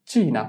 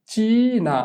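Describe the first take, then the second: First: Said in the usual way. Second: চীনা drawn out, চী held long and high; pronunciation demo. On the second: Shown as a demonstration. Teacher dictates so pupils can write it, চীনা with long high চী. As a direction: stretch the first vowel of চীনা, then fall. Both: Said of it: "আমি উচ্চারণ বলে দিব".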